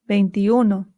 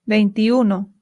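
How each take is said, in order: The two takes are said the same way.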